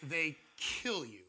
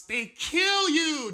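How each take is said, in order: First: "They kill you" said slowly, at normal height, "kill" leaned on; quiet repeat. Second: "they kill you" drawn out slow, high and loud on "kill"; stress on kill. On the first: Preacher repeating the line for the congregation, slow and calm. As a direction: let "kill" sink in softly and slowly. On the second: Preacher stressing the shock of heart surgery, slow loud emphasis. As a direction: stretch out "kill" and hit it hard. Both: Shown as a demonstration. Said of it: "Did you hear that?".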